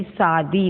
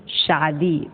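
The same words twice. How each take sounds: First: शादी said with a plain s, as सादी; teacher demonstrates the mistake: शादी with s; शादी with a dental s; wrong s sound. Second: शादी with a clear sh, शा; teacher models the right form: शादी with sh; शादी with the sh sound; correct sh sound. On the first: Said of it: "देखिए शादी नहीं". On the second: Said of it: "शुद्ध ये". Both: Shown as a demonstration.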